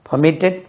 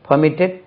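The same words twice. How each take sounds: The two takes are said the same way.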